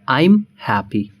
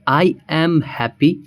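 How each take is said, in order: First: I am is shortened into one syllable. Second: I am is said as two full words.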